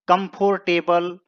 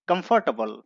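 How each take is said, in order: First: The r sound is fully pronounced. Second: The r sound is weakened, barely pronounced. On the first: The speaker calls it wrong. "इस word को generally हम लोग गलत पढ़ते हैं" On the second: The speaker calls it right. "र का उच्चारण कम करना है"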